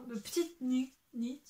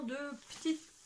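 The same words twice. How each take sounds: First: "petite ni-, nit" restarted and "nit" said carefully, like English "knit"; correcting her accent. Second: "de petite" said the French way, as in "petite" fille; the designer's name read naturally in French; Petite Knit with her French accent. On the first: Shown as a demonstration. Knitter laughs at her accent, retries the name carefully. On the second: Real, not acted. Knitter reads the brand name aloud, French pronunciation. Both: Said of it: "mon accent".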